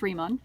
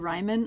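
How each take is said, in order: First: The first syllable sounds like 'ree'. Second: The first syllable sounds like 'rye'. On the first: The speaker calls it right. "it's actually pronounced Riemann" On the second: The speaker calls it wrong. "It looks like it should be Riemann or something"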